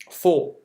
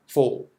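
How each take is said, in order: First: Said in the usual way. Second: Four said low and deep. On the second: Shown as a demonstration. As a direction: drop Four into a deeper pitch. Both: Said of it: "tu mets le grave".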